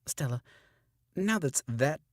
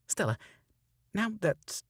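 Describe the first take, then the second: First: Retaken line. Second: Stumbled line. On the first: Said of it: "it's frustrating sometimes". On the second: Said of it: "tripping up". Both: Shown as a demonstration.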